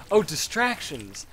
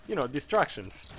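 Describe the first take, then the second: First: Said in the usual way. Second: Poorly imitated Spanish-like accent on "distractions"; imitated foreign accent. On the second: Interviewer repeating herself to him, imitated vaguely Spanish accent. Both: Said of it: "I'll try to replicate the accent".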